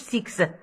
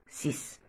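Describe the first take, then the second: First: The word ends with a ks sound. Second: The word ends with a plain s sound. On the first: The speaker calls it wrong. "ما نقولوش سيكس" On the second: The speaker calls it right. "نقولو ديس سيس"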